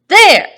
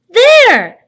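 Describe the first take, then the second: First: It sounds angry and excited. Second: It sounds happy and excited.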